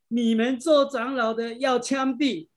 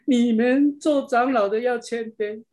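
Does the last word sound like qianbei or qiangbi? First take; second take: qiangbi; qianbei. First: The last word sounds like qiangbi, Minnan-accented. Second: The last word sounds like qianbei, standard Mandarin. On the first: It sounds like a threat to shoot people. The speaker calls it wrong. "因为他有那个闽南语的口音所以呢他把那个谦卑他把它练成把它练成枪毙" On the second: It is a call to be humble. The speaker calls it right. "原来他不是说枪毙，他是说谦卑"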